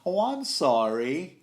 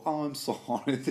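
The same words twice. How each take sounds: First: Drawn-out sarcastic "oh, I'm sorry", higher and louder, slow; sarcastic apology. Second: A light, rising "oh, I'm sorry"; mock apologetic. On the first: Retold or imitated. Podcaster voicing the assassin's sarcastic apology before striking. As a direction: oversell the apology you don't mean. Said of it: "maybe so sarcastic". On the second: Podcaster imitating the sorrowful assassin's apology. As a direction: toss off a fake apology. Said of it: "I bet that was his tone".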